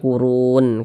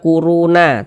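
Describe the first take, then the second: First: The word ends on the consonant sound. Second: The word ends with an extra vowel sound. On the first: The speaker calls it right. "tapi dibaca kurun" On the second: The speaker calls it wrong. "Jangan dibaca kuruna"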